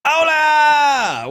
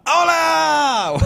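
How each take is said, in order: First: Big, high hola shout; shouted greeting. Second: Shouted greeting. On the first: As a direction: call it out across the room. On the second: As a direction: belt out the greeting. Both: Real, not acted.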